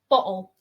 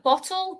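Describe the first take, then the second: First: The middle T is dropped or swallowed. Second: The middle T is clearly pronounced.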